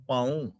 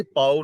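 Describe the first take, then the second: First: ਪਾਉ said "paoon", nasal final vowel; ਪਾਉ with a nasalised ending; correct reading demo. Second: ਪਾਉ said "pao", no nasal ending; ਪਾਉ ending without nasalisation; wrong reading demo. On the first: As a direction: say ਪਾਉ as pa-oon, ending through the nose. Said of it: "ਇੱਥੇ ਪਾਉ ਨਹੀਂ ਪੜ੍ਹਨਾ". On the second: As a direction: say ਪਾਉ as pa-o with an oral final vowel. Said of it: "ਪਾਉ ਨਹੀਂ ਪੜ੍ਹਨਾ". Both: Shown as a demonstration.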